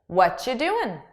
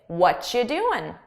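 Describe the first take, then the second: The two takes are said the same way.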